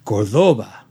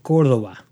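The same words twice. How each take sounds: First: "Cordoba" low, stressed on the middle syllable; Ricardo Montalban. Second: Said in the usual way. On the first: Retold or imitated. Quoting an old car commercial, "Cordoba" with stress shifted to DOH. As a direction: say "Cordoba" as cor-DOH-ba, in a lower ad-pitchman voice. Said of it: "Ricardo Montalban said in the, uh, Chrysler commercials". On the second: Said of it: "the accent is over the O".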